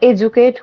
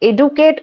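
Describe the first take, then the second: First: The middle consonant is a soft j sound. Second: The middle consonant is a plain d sound. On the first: The speaker calls it right. "True উচ্চারণ দেখো এডুকেট উচ্চারণ হয়" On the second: The speaker calls it wrong. "আমি কিন্তু ডি করছি না, because এডুকেট উচ্চারণটা হয় না।"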